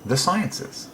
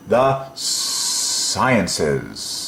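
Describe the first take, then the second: First: Said in the usual way. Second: Very long hissing S in "sciences"; dragged-out S. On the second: Shown as a demonstration. Teacher entertaining the class, "sciences" with S dragged out very long. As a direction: stretch each end S of "sciences" like escaping steam. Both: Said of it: "you can drag out this S".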